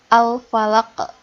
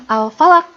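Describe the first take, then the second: First: Slow Al-Falaq with the q bounced out; qalqalah bounce. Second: Al-Falaq ending flat, q not released; no bounce. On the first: Teacher models the right ending slowly. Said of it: "ada ke-nya". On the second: Teacher contrasts the wrong ending again. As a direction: stop Al-Falaq dead with no echo. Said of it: "Jadi bukan Al-Falaq". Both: Shown as a demonstration.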